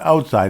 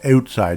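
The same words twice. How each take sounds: First: It is said in a plain, non-Canadian accent. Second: It is said in a Canadian accent. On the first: The speaker calls it wrong. "It's not outside" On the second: The speaker calls it right. "You have to have the Canadian accent"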